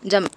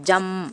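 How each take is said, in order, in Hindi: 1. आख़िरी m की आवाज़ छोटी और कमज़ोर निकलती है। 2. आख़िरी m की आवाज़ पूरी और भरी हुई है। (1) "जम जम ऐसे नहीं पढ़ना" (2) "मीम की पूरी आवाज़ निकालेंगे"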